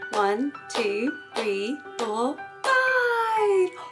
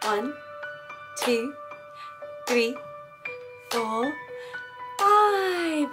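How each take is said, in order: First: The counting is at a faster pace. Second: The counting is at a slow pace.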